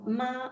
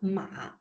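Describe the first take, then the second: First: It is said with the first tone. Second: It is said with the third tone. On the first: It means mother. "C'est maman" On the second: It means horse.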